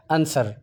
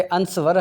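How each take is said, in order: First: आंसर with a silent w; आंसर, short and falling; right reading. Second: अंसवर with the w sounded; mock mistake अंसवर; अंसवर, w pronounced in the middle; wrong reading. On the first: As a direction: correct आंसर, no w. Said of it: "डब्ल्यू उसकी खामोश है।". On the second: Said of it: "लेकिन अंसवर नहीं है". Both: Shown as a demonstration.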